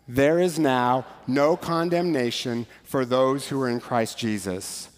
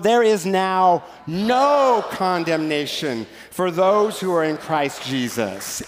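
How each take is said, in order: First: It is read in a calm, restrained way. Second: It is read excitedly, with strong stress on no. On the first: The speaker calls it wrong. "contained, controlled, decent, and in order" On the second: The speaker calls it right. "as though it were the most amazing news ever... emphasize the word no"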